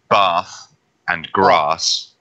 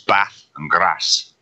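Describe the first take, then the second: First: The words are said in a southern British accent. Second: The words are said in a northern British accent. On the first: The speaker comes from the south of the UK. "you're from the south of the UK" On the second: The speaker comes from the north of the UK. "If you come from the north"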